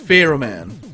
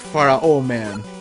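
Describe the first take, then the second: First: Pharaoh is pronounced the usual English way. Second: Pharaoh is pronounced like Spanish Faraón. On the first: The speaker calls it right. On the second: The speaker calls it wrong.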